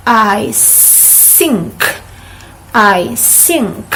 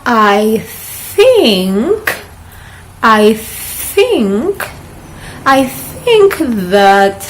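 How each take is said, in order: First: "think" said as "sink", with an S; wrong s sound. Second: "think" with a soft TH, the tongue out, slowly; correct soft th. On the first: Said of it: "It's not". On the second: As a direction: model the right th in "think". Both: Shown as a demonstration.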